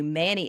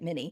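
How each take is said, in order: First: The word is over-enunciated with a clear vowel. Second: The word is said casually with a reduced vowel. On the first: "let me just over enunciate this" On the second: "the way I say it"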